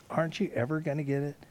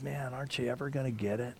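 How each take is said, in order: First: Faster, pressing exasperated repeat; fast, frustrated second ask; quicker repeat. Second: Soft, exasperated plea after a deep sigh; softer, tired Jesus pleading with his disciples; weary sigh. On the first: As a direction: push the question again, quicker. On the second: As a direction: let the question sag with disappointment. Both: Retold or imitated. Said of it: "And he sighs deeply".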